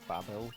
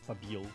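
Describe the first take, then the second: First: It is said like the biblical tower Babel. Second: It is said as spelled, ending in 'bil'. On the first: This is the supposedly proper pronunciation. "you're supposed to pronounce it Babel, but like Babel. Like that tower from like the Bible" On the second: This follows the spelling and sounds cooler. "because of the way they spell it, I've always called it Tower of Babil"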